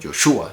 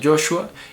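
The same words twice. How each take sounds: First: The stress is on the second syllable. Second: The stress is on the first syllable. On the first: This is how the name was really said. The speaker calls it right. "en la realidad sería como Joshua" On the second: This is how most people say it today. The speaker calls it wrong. "La gente lo llama Joshua"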